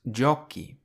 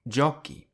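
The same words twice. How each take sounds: No difference in how they are said.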